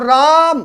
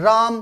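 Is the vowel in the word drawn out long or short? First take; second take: long; short. First: The vowel is stretched out long, like a call. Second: The word is said briefly with a normal vowel. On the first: Someone is being called out to. "इतना लंबा खींच के बोला गया है" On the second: The name is simply said. "ये तो छोटा शब्द हो गया"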